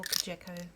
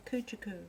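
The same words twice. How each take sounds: First: Kujaku said kuh-JECK-oh; alternative pronunciation. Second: Kujaku said KOO-choo-koo; alternative pronunciation. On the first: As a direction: stress the middle "jeck" in Kujaku. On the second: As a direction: squeeze the middle of Kujaku to a short "choo". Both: Shown as a demonstration. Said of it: "whichever way you wanna say it".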